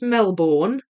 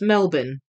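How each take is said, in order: First: The name is said the way it is spelled. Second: The name is said unlike its spelling. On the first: The speaker calls it wrong. "it's not pronounced Melbourne, even though that's how it's spelt" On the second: The speaker calls it right. "It's pronounced Melbourne"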